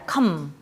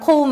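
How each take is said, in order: First: The vowel is a short 'uh' sound. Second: The vowel is a long gliding 'oh' sound. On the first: The word is an exception to the long-vowel rule. The speaker calls it right. "이거는 그냥 come이야 come" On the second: The long-vowel spelling rule was applied to the word. The speaker calls it wrong. "자 I comb 했었더니 아니 아니야 이거는 comb 아니야"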